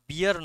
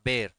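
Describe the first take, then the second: First: The word is said like two syllables, bee-ar. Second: The word is said as one syllable, bair. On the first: The speaker calls it wrong. "উচ্চারণটা বিয়ার নয়" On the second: The speaker calls it right. "উচ্চারণটা বের"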